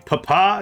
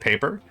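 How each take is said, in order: First: The word ends in an open 'ah' sound. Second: The word ends in a plain 'er' sound. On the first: "I'm trying to say things funny. Papa instead of paper" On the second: "instead of paper"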